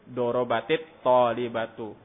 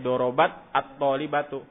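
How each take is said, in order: First: An 'i' vowel links the two words. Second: The words meet without an added linking vowel.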